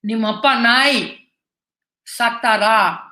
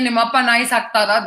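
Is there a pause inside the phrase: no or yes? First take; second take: yes; no. First: A pause breaks the phrase in the middle. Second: The phrase runs on without an inner pause. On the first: The speaker calls it wrong. "So the pause is at the wrong place" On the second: The speaker calls it right. "if you just say"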